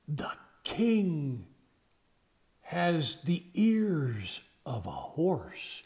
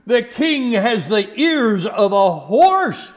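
First: It is said softly and eerily. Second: It is said loudly.

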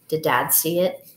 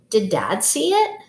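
First: The voice stays flat at the end. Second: The voice rises at the end.

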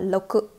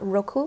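First: The first consonant sounds close to an l. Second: The first consonant is an English-style r. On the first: The speaker calls it right. "the R in Japanese is similar to L" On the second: The speaker calls it wrong. "not roku"

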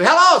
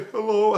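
First: The voice sounds happy and excited. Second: The voice sounds sad and downcast. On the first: Something good has happened. "what'd you do? Win the lottery?" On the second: Something bad has happened. "what's the matter? Are you all right? What's wrong?"

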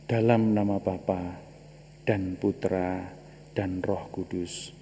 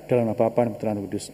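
First: The phrase is said slowly and calmly. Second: The phrase is said quickly and hurriedly. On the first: "Kenapa harus pelan-pelan, lambat begitu?" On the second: "Bisa begini, bisa"

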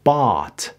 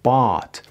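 First: The vowel is long and drawn out. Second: The same.

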